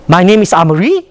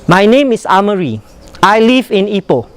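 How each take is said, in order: First: "My name is Amari?" lifted into a question; rising question. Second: "My name is Amari" falling at the end; falling statement. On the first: Teacher shows the odd rising statement. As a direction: end it as if unsure. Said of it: "what is the reaction". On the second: Teacher models a falling statement. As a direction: let it drop down. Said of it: "It goes down". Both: Shown as a demonstration.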